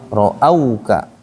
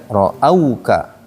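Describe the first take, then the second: No difference in how they are said.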